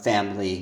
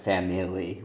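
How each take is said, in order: First: Family squeezed to two syllables, FAM-ly. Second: Family said in full as three syllables, FAM-i-ly. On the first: Teacher shows the common two-syllable family. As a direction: say family the quick everyday way, FAM-ly. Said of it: "most people just say family". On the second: Teacher contrasts the full three-syllable family. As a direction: spell family out, FAM-i-ly, every syllable there. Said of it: "not with family". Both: Shown as a demonstration.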